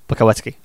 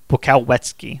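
First: The name is said very fast. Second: The name is said at a slower pace.

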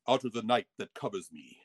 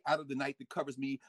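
First: It is recited in a grand, theatrical voice. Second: It is recited in a plain, ordinary voice. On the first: "in the Shakespearean voice. ... No, I had to say" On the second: "So I couldn't say"

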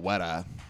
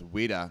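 First: The word is said in an American accent. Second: The word is said in a New Zealand accent. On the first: "an American would just say a weta" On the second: "in New Zealand it's weta"

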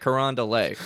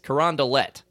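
First: The name has a French pronunciation. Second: The name has an anglicized, non-French pronunciation. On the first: This is how an outsider would expect it said. The speaker calls it wrong. "You'd think we would use the French enunciation" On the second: This is how locals say it. The speaker calls it right. "It's Carondelet"

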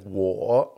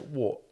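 First: It is said the standard Mandarin way. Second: It is said the Wuhan dialect way.

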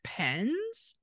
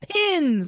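First: The vowel sounds like the one in 'pen'. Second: The vowel sounds like the one in 'pin'. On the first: The speaker calls it wrong. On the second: The speaker calls it right.

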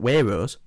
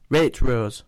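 First: The T sound is dropped or swallowed. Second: The T sound is clearly pronounced. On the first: The speaker calls it wrong. "Not Waitrose" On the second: The speaker calls it right. "It's got a T in it"

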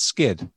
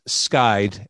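First: The vowel sounds like short 'i'. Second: The vowel sounds like 'eye'. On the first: The speaker calls it wrong. "I mispronounced your name" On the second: The speaker calls it right. "So the band is Skyde"

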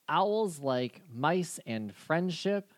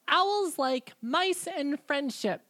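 First: It is said in the speaker's ordinary voice. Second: It is said in a put-on assistant voice. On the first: "You don't sound like Loxif" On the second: "I like the voice. Fine. Loxif!"

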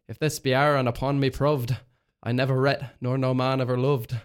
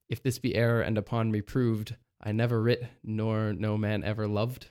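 First: It is said in Shakespearean original pronunciation. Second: It is said in a modern English accent.

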